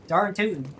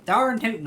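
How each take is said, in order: First: Casual country "Darn tootin'"; Southern accent. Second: Darn tootin' higher and louder; emphatic Southern accent. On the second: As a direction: punch out "Darn tootin'" proudly. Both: Pretend. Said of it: "do the Southern accent".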